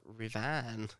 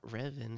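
First: "Revan" stressed on the second syllable, ruh-VAHN; corrected pronunciation. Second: "Revan" stressed on the first syllable, REV-un; wrong pronunciation. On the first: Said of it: "it's Revan". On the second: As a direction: say "Revan" as REV-un, weak ending. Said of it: "it's not Revan". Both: Shown as a demonstration.

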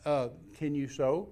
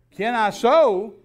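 First: Calm, slow, understated question; real calm. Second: High, very loud, drawn-out disbelief; mock incredulity. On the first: Retold or imitated. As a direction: ask it evenly, retelling your unruffled self. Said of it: "I just real calmly looked at her". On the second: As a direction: throw it back as an outraged, slow echo. Wife incredulous at his question.

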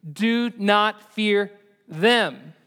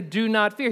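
First: "Do not fear them" slow, with "them" punched hard and louder; slow deliberate correction landing on "them"; stress on them. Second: Said in the usual way. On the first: Shown as a demonstration. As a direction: lean on "them" and draw the whole line out. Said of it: "He says". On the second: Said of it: "He doesn't say".

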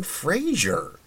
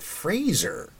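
First: "Fraser" with a zh, as FRAY-zher, high and drawn out; wrong pronunciation. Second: "Fraser" with a z, rhyming with razor; right pronunciation. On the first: Host owning up to the mistake, "Fraser" said with zh. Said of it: "we've all been saying Fraser and not Fraser". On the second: Host giving the correct name, "Fraser" said with a z. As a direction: say "Fraser" as FRAY-zer. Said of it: "and not Fraser". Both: Shown as a demonstration.

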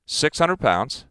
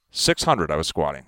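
First: Slow, stressed "six hundred pounds". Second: Said in the usual way. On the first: Real, not acted. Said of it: "stress on the weight". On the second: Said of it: "repeated claim".

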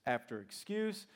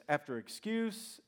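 Both takes have the same delivery.

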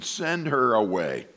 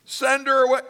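First: Slow, falling acted dismissal; mock-weary brush-off. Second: High-pitched mimicked dismissal; hammed-up disciple voice; mock begging. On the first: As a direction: drag it out, dropping down. Disciples dismissing woman, acted. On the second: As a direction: echo the plea high and incredulous. Mimics disciples, then scolds them.

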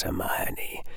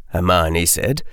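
First: Hermione breathed as a soft whisper; whispered name. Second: Said in the usual way. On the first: A narrator's reading. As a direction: whisper her name from the dark. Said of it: "spoke the sibilant whisper".

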